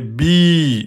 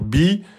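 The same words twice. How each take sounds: First: The vowel is long, held two beats. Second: The vowel is short, held one beat. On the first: "c'est la prolongation de la kasra" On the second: "au lieu de dire bi"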